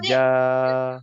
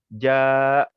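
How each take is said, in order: First: The word ends softly on a plain vowel. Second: The word ends with a sharp glottal stop. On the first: The speaker calls it right. "dia akan mute hujung dia" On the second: The speaker calls it wrong. "ataupun ja letak hamzah"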